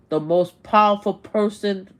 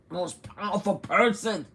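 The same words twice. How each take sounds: First: Loud, punched emphasis; emphatic. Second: Said in the usual way. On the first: Real, not acted. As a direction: hammer the phrase home. Emphatic rant repeats phrase.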